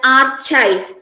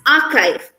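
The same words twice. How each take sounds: First: The middle sound is like ch in church. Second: The middle sound is a K sound. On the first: The speaker calls it wrong. "we read this as" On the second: The speaker calls it right. "we pronounce it as K ... it's pronounced as"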